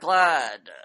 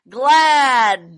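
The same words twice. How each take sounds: First: The vowel is short and flat. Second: The vowel is long and stressed. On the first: The speaker calls it wrong. "Not glad" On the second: The speaker calls it right. "Extend the vowel. Emphasis at the end"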